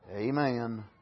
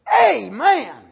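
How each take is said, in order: First: It is said quietly, under the breath. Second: It is shouted out loudly. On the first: The agreement is subdued and passive. "Just under the breath" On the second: The agreement is open and wholehearted. "I believe he shouted it aloud"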